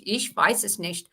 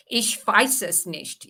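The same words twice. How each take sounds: First: Lightly voiced German, repeated; German accent. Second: Slow German, lips and tongue up; lightly voiced German accent, slow and deliberate. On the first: Repeating the German demo for the group, light German accent. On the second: Actress demonstrating German to the stream, slow German accent. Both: Shown as a demonstration. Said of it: "German is also at the back".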